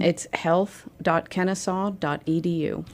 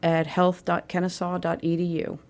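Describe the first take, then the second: First: It is said slowly and deliberately. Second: It is said at normal, quicker speed.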